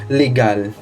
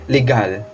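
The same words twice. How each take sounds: No difference in how they are said.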